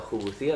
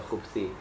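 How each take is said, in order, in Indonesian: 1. Ada vokal u pendek setelah b. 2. Tidak ada vokal setelah b. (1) "pakai dhamma" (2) "pakai sukun"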